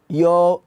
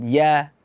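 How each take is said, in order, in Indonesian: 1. Vokalnya dibulatkan, terdengar seperti 'o'. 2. Vokalnya terbuka dan melebar, terdengar seperti 'a'. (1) "kita baca uh, pengucapannya seperti o, yo ... enggak" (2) "harus kita buka mulutnya, infitah, senyum"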